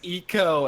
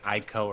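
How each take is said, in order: First: The name begins with an 'ee' vowel sound. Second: The name begins with an 'eye' vowel sound. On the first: "Everybody's like, "Oh, it's Eco,"" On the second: "pronouncing it Ico originally"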